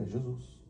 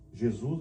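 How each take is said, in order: First: É Jesus said softly with a falling tune; plain answer. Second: Jesus? asked with a rising tune; a mild puzzled rise on Jesus; puzzled question. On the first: Pastor confirming the name to Nasser, soft falling statement. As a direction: settle it, fall on Jesus. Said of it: "Eu falei". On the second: Nasser asking back about Jesus, rising tune. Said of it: "E ele falou assim". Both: Retold or imitated.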